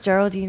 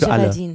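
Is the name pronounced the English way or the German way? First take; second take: English; German. First: The name is pronounced the English way. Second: The name is pronounced the German way.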